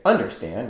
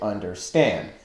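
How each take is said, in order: First: The stress falls before the last syllable. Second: The stress is on the last syllable. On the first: The speaker calls it wrong. "We don't say understand" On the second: The speaker calls it right. "with the accent on the final syllable"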